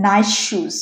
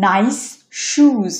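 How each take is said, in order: First: নাইস said "naish", merging into শুজ; one long sh across নাইস শুজ; assimilated S. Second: Said in the usual way. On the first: Shown as a demonstration. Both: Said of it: "এটা হচ্ছে হবে".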